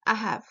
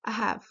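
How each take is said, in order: The two takes are said the same way.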